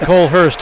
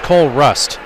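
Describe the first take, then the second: First: The second part of the name sounds like 'hurst'. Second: The second part of the name sounds like 'rust'. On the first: The speaker calls it wrong. "I called him Cole Hurst" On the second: The speaker calls it right. "That is his correct name"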